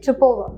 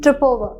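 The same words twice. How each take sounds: First: The two words run together smoothly. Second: The two words run together smoothly.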